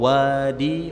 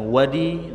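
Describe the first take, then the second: First: The first vowel is held long. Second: The first vowel is kept short. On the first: It means a valley. "wawunya panjang artinya lembah" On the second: It names an impure bodily discharge. "nah ini yang sedang kita bicarakan"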